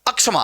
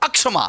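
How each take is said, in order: Both takes have the same delivery.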